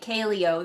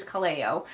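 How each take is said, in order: First: Kaleo said as KAY-lee-oh; mispronounced name. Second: Kaleo said as kuh-LAY-oh; corrected pronunciation. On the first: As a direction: stress the first syllable of Kaleo, KAY-lee-oh. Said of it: "putting the emphasis on the wrong syllable". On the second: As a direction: stress the middle syllable of Kaleo, kuh-LAY-oh. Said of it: "but actually it is Kaleo". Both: Shown as a demonstration.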